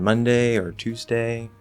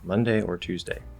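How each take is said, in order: First: The voice rises at the end. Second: The voice falls at the end. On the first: These are open suggestions. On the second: These are the only two options; pick one.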